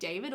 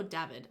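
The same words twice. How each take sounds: First: David with a long "ay"; long-a pronunciation. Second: David with a short flat "a"; short-a pronunciation. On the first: Weighing up a name's pronunciation, long-a David. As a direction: say David as DAY-vid. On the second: Weighing up a name's pronunciation, short-a David. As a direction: say David to rhyme with "avid". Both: Shown as a demonstration. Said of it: "do you pronounce that like David or David".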